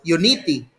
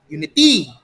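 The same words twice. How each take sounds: First: The stress is on the second syllable. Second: The stress is on the third syllable. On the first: "If you want the stress to be in the second syllable" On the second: "If you place it on the third syllable"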